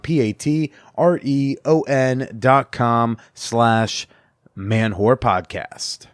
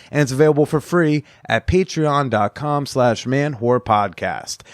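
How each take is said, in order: First: Slow, letter by letter spelling; slowly spelled out. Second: Said in the usual way. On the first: Shown as a demonstration. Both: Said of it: "That's Patreon".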